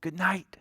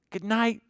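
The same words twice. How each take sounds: First: Voiceless whispered good night; a hushed "Good night" with no voice. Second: Said in the usual way. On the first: Acted. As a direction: whisper it so the animals can sleep. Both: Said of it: "The farmer whispers round the farm".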